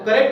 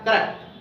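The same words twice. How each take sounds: First: It is said loosely, in an everyday local form. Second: It is said carefully, with every sound fully pronounced. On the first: The speaker calls it wrong. "कोई correct बोलता है तो correct नहीं होता" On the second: The speaker calls it right. "उसका सही शुद्ध उच्चारण होता है"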